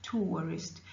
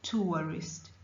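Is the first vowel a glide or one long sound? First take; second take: glide; glide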